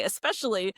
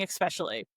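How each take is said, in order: First: "especially" said as "ess-pecially"; no K sound in "especially", just S; especially without X. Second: "especially" said as "ekspecially". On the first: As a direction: start "especially" with a plain "es". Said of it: "now I only say especially". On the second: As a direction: start "especially" with "eks". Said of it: "harass me for saying especially". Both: Shown as a demonstration.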